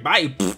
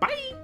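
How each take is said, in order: First: It is said at a lower pitch. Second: It is said at a very high pitch.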